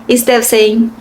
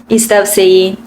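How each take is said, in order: Both takes have the same delivery.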